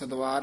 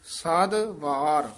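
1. ਸ਼ਬਦ ਇੱਕ ਇਕਾਈ ਵਾਂਗ ਜੁੜ ਕੇ ਬੋਲਿਆ ਜਾਂਦਾ ਹੈ। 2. ਸ਼ਬਦ ਦੇ ਦੋ ਵੱਖਰੇ ਹਿੱਸੇ ਹਨ। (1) "ਸਦਵਾਰ ਨਹੀਂ ਕਹਿਣਾ" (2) "ਵੱਖਰਾ ਪਾਠ ਕਰਨਾ"

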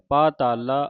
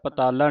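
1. ਪਹਿਲਾ ਸਵਰ ਲੰਬਾ ਹੈ। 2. ਪਹਿਲਾ ਸਵਰ ਛੋਟਾ ਹੈ। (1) "ਇਸ ਤਰ੍ਹਾਂ ਉਚਾਰਨ ਕਰਨਾ ਹੈ" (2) "ਪਤਾਲਾ ਨਹੀਂ ਕਹਿ ਦੇਣਾ"

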